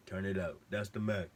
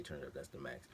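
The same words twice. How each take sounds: First: Higher and louder, punching the word max; hammed-up meme voice. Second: Said softer and lower, just reporting the line; plain low retelling. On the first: Narrator to viewers, a loud hammed-up meme quote. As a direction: belt "Turn it up. That's the max." as a goofy meme bit, with a fall on max. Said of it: "make a little jokey joke". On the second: Retold or imitated. Narrator to viewers, a soft flat aside. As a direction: read the meme line flatly, under the breath. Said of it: "He didn't say".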